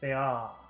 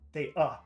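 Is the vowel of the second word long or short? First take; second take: long; short. First: The second word has a long vowel. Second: The second word has a short vowel. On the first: The speaker calls it right. "It has to be very long in duration" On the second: The speaker calls it wrong. "if you say uh, the short sound"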